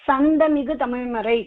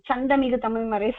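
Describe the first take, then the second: First: The first word begins with an 's' sound. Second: The first word begins with a 'ch' sound. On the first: The speaker calls it right. "அப்படிதான் சொல்லுவோம்" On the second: The speaker calls it wrong. "சொல்ல மாட்டோம்"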